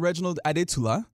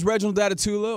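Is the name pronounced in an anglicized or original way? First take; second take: original; anglicized. First: The name is said with its full original pronunciation. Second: The name is said in a casual anglicized way.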